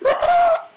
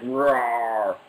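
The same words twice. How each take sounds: First: It is a roar imitating a hawk. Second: It is a roar imitating an orc.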